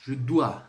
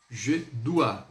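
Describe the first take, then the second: First: "dois" punched louder, the A stressed. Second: Said in the usual way. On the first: Shown as a demonstration. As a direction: hit the syllable "dois" harder. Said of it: "sílaba aí no A, mais forte". (ênfase forte em "dois") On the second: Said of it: "essa é a pronúncia".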